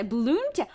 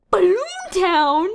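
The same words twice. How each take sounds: First: Said in the usual way. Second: High, loud, stretched-out question; hammed-up astonished query; exaggerated disbelief. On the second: Real, not acted. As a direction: draw the name out incredulously. Repeats name in exaggerated disbelief.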